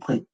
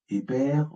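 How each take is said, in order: First: The vowel comes only after both consonants. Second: A vowel comes before and between the consonants. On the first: "ou pré" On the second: "Et non pas épère"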